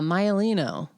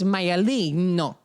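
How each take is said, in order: First: The name is said with English-style pronunciation. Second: The name is said with Italian-style pronunciation. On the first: This is how it looks when read off paper. "You write the name down and you're like, oh, yeah" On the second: Someone else is correcting the name. "someone inevitably is like, it's"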